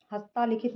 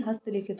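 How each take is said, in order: First: हस्तालिखित with long ता; long middle vowel. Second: Said in the usual way. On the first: Shown as a demonstration. Teacher showing a common error, long middle vowel. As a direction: stretch the ता in हस्तालिखित. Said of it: "नहीं". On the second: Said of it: "होता है".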